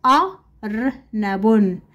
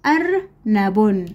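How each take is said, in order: First: "أرنب" very slowly, split into separate sounds; syllable by syllable. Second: "أرنب" slowly, with fewer breaks; slow, joined-up word. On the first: Teacher splits word, then joins it. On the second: Same word, joined more closely. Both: Shown as a demonstration.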